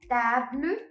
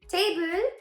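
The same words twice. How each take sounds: First: The word is pronounced the French way. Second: The word is pronounced the English way.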